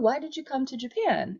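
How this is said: The question sounds light, relaxed and casual. It is a friendly question within a conversation. "very light and casual"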